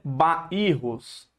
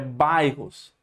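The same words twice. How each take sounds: First: The word is said with three syllables. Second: The word is said with two syllables. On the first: The speaker calls it wrong. "Não é bairros, não" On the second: The speaker calls it right. "é duas sílabas apenas"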